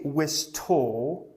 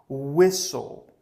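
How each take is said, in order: First: The T sound is pronounced in the word. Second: The T sound is left out of the word. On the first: The speaker calls it wrong. "Don't say wistole" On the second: The speaker calls it right. "we can take out the T and the E here"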